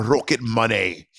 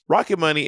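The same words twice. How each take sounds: First: Playful put-on Scottish burr; hammy Scottish, savouring the name; Scottish accent. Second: Said in the usual way. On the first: Shown as a demonstration. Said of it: "say with a Scottish accent". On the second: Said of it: "fun to say with a Scottish accent".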